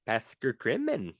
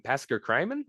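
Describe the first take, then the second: First: Påskekrimen with "krimen" said as KREE-men; Norwegian-style pronunciation. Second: Påskekrimen with "krimen" said as CRY-men, questioning; unsure Påskekrimen, "cry" in the middle, rising; anglicized pronunciation. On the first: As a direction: say Påskekrimen with an "ee" in the krim. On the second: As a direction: say Påskekrimen with "crime" inside it. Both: Shown as a demonstration. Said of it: "or crime".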